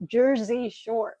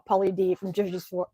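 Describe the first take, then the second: First: Slow, careful, lips over gums; no lower teeth, drawn out. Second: Said in the usual way. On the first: Real, not acted. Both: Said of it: "it's hard to talk with no teeth in the bottom".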